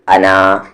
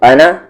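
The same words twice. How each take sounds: First: The final vowel is long, alif pronounced. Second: The final vowel is short, alif silent. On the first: The reading stops on this word. "और रुक रहे हैं तो अना" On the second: The reading continues without stopping. "अगर यहाँ पर पढ़ रहे हैं कंटिन्यू कर रहे हैं तो अना"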